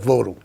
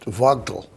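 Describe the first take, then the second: First: The name is said the local way. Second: The name is said the German way. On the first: "the local people call it Vodal" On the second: "German would be pronounced Vogtel"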